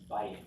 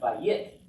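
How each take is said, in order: First: The stress is on the first syllable. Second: The stress is on the second syllable. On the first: The speaker calls it right. "the accent's on the first syllable" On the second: The speaker calls it wrong. "It's not, it's not bayit. That just sounds funny"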